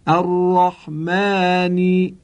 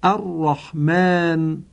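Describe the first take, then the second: First: Drawn-out recitation of الرحمن for the class to echo; slow recited repeat. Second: الرحمن drawn out slowly with a doubled r and a throaty Arabic ḥ; slow model recitation of الرحمن; careful Quranic pronunciation. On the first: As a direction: lead the students through الرحمن in a recitation tone. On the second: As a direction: teach الرحمن syllable by syllable. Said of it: "به این کلمات ... عنایت بفرمایید". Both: Shown as a demonstration.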